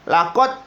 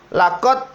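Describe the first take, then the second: The two takes are said the same way.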